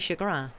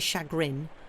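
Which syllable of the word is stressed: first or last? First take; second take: last; first. First: The stress is on the last syllable. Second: The stress is on the first syllable. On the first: The speaker calls it right. "we say chagrin" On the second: The speaker calls it wrong. "we don't say chagrin"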